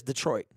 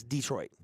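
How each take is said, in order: First: "Detroit" said as duh-TROIT; "Detroit" with a quick duh before troit; usual duh-troit. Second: "Detroit" said as DEE-troit; "Detroit" with dee as first syllable; rejected DEE-troit. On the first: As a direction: say "Detroit" with a short, unstressed first syllable. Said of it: "everybody says Detroit". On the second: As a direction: say "Detroit" with a long ee up front. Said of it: "Nobody says Detroit". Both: Shown as a demonstration.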